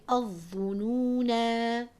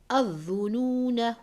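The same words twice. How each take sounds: First: The final vowel is held long for two counts. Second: The final vowel is short, joined to the next word. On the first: The reciter stops at the end of the verse. "I would stretch that na, the alif, for two counts" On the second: The reciter joins it to the next verse. "I would disregard that alif"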